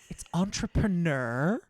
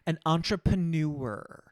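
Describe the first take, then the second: First: The ending is said in the ordinary way. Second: The ending sounds like 'newer' with a crisp R. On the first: The speaker calls it right. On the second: The speaker calls it wrong.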